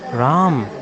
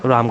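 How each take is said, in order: First: The name is called warmly, stretching the final m. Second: The name is called in a plain, neutral way. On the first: The caller feels love for the person. "if you want with love, the mood is different, the tone changes" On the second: An ordinary call to someone. "What are you saying?"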